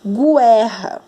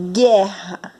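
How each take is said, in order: First: "guerra" mispronounced as goo-EH-ha; U sounded out. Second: "guerra" as GHEH-ha, no u sound; silent U. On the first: Teacher shows how it would sound wrongly, U sounded. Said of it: "Pra ouvir o som do U". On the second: Teacher shows pupils the normal word, silent U. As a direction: say "guerra" with hard g straight into open e. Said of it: "não conseguimos ouvir o som do U". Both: Shown as a demonstration.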